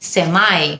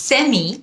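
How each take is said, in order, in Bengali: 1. এটি আমেরিকান উচ্চারণে বলা হয়েছে। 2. এটি ব্রিটিশ উচ্চারণে বলা হয়েছে। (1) "হলো আমেরিকান উচ্চারণ" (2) "হলো ব্রিটিশ উচ্চারণ"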